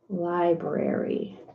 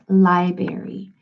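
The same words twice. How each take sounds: First: Both R sounds in the word are pronounced. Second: The R after the B is left out. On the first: The speaker calls it right. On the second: The speaker calls it wrong.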